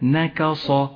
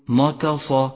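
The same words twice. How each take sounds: First: The first two consonants are light; the last heavy. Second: The first two consonants are heavy like the last. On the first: The speaker calls it right. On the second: The speaker calls it wrong.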